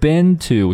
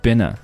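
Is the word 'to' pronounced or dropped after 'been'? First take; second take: pronounced; dropped. First: The word 'to' is clearly pronounced. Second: The word 'to' is dropped entirely.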